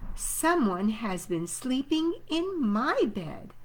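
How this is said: It is said in a middle-sized voice.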